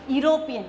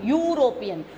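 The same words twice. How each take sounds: First: The word begins with a plain 'e' vowel sound. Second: The word begins with a 'you' sound. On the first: The speaker calls it wrong. "we should not pronounce this word European, E, we should not say that" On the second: The speaker calls it right. "in the sound of U"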